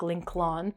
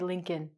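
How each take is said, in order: First: The name is said following its spelling. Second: The name is said in its usual reduced form. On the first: The speaker calls it wrong. "we don't say the name like Lincoln" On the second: The speaker calls it right. "We say Lincoln"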